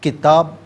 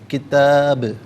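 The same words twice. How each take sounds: First: The final b stops flat without an echo. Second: The final b ends with an echoing bounce. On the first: The speaker calls it wrong. "किताब नहीं" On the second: The speaker calls it right. "आवाज़ लौटती हुई महसूस होनी चाहिए"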